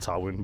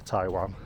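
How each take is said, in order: First: The name is said with its Welsh pronunciation. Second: The name is said like the word Taiwan. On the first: This is how local Welsh speakers say it. "They like to call it Tywyn" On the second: This is how English speakers say it. "in English we say Taiwan"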